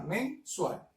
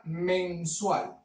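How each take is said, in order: First: "mensual" split as MEN, pause, SUAL; dividido en sílabas. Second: Said in the usual way. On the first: Shown as a demonstration. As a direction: say "mensual" syllable by syllable. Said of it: "esta palabra se separa". ("mensual" silabeado: MEN, pausa, SUAL) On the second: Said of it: "la palabra".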